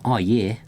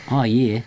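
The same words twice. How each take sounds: First: Light Australian "Oh, yeah"; a hint of Aussie drawl; Australian accent. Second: Brighter Aussie "Oh, yeah"; hammed-up Australian phrase; Australian accent. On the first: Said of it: "I can do one phrase in Australian". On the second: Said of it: "Tom's the accents". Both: Shown as a demonstration.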